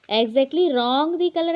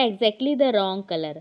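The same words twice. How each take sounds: First: Slow, a bit higher and louder; slow wrong example. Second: Spaced out slowly, word by word; slow dictation. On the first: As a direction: stress the wrong order slowly. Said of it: "ऐसा sentence नहीं बनता". (गलत क्रम धीरे और ऊँचे स्वर में) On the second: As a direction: read it slowly to the class. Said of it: "फिर क्या?". (धीरे धीरे बोलकर) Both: Shown as a demonstration.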